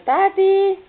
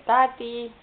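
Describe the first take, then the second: First: High, loud, drawn-out call; strigat tare. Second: Moderately raised, drawn-out call; strigat ușor. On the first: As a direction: shout for daddy, voice leaping up. (strigă tare, pe ton înalt) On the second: (strigă-l ușor pe tati) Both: Shown as a demonstration. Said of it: "Ia strigă".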